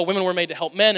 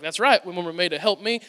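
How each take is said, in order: First: Said in the usual way. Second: Lightly Southern man, low voice; low-pitched quote with a Southern twang; Southern accent. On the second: Retold or imitated. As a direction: slip into a mild Southern accent. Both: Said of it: "my voice went southern there".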